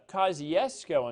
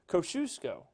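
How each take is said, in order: First: It is said the Mississippi way. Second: It is said the South Texas way. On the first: This is how the name is said in Mississippi. "Kosciuszko in Mississippi" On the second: This is how locals in South Texas say the name. "but you call, say it Kosciuszko"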